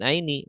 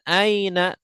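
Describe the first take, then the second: First: The word ends in an i vowel. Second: The word ends in an a vowel. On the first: The speaker calls it wrong. "tidak min aini ya" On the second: The speaker calls it right. "Min aina"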